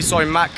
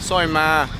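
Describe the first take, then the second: First: The second word ends with an audible k sound. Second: The second word ends without any k sound. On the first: "It's actually meant to be soi mak" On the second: "but Thailand pronunciation"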